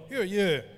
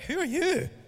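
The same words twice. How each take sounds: First: It is said plainly, without attitude. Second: It is said sassily, with attitude.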